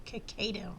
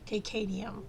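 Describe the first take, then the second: The two takes are said the same way.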